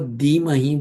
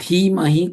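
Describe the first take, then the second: First: The first consonant has no aspiration. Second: The first consonant has a breathy aspiration. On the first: It carries a different meaning. The speaker calls it wrong. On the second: It means we meditate. The speaker calls it right.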